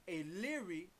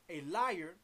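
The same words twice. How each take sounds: First: Lyre as two syllables; alternative pronunciation of lyre. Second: Said in the usual way. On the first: Shown as a demonstration. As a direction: give lyre its ee-sound variant. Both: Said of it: "it might be pronounced lyre".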